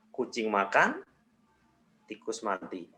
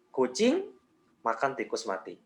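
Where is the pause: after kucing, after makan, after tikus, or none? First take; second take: after makan; after kucing. First: There is a pause after "makan". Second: There is a pause after "kucing". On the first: "jedanya diganti di setelah makan" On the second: "kita kasih jeda di kucing"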